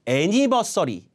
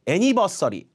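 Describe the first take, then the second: First: The 'ni' syllable has a full 'nee' vowel. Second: The 'ni' syllable has a full 'nee' vowel.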